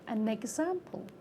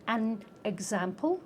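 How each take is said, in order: First: The final n links onto the next word. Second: The words are said separately, not linked. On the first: The speaker calls it right. "you can move the consonant onto the next word" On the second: The speaker calls it wrong. "we don't say an example"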